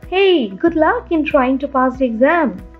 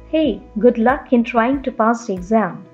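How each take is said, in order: First: It is said in a casual tone. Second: It is said in a serious tone.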